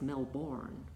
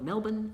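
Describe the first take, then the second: First: Pronounced the way the spelling looks. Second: Pronounced the local Australian way. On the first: This is how it looks written down. "it looks like it's Melbourne" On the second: This is how Australians say it. "we call it Melbourne and Brisbane"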